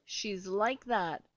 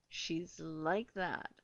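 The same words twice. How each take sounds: First: Said in the usual way. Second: "She's like that" repeated slowly, lower and softer, each word weighted; slow emphatic repeat. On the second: Shown as a demonstration. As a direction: drag out "like" as a pointed aside.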